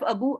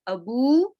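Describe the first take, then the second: First: The final vowel is short. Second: The final vowel is lengthened. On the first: "instead of abu" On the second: "I pronounce them as abu ... There is a mud sound coming"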